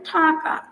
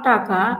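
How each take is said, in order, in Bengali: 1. প্রথম ব্যঞ্জনে বাতাসের ফুঁ আছে। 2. প্রথম ব্যঞ্জনে কোনো বাতাসের ফুঁ নেই। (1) "হবে ঠাকা" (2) "নট টাকা"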